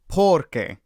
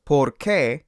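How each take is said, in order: First: "por qué" with por stressed and qué falling away; "por qué" as the word for because, weight on por. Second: "por qué" with qué stressed. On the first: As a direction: lean on the first syllable, por. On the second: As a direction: lean on the last syllable, qué, in "por qué". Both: Shown as a demonstration. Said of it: "the stress is on different parts".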